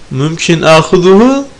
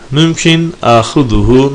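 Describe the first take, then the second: First: The pitch rises on the last syllable. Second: The pitch falls on the last syllable. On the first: The speaker asks whether they may take it. "dersen alabilir miyim olur" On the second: The speaker states that they can take it. "Son hece alçalan bir tonla söylenirse onu alabilirim"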